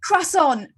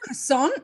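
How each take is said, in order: First: It is said in a plain English accent. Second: It is said in an American accent, stress last. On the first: "or you're like" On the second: "the accent is like at the end a croissant"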